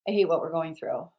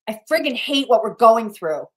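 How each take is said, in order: First: It is said plainly, without much emotion. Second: It is said with strong emotional power.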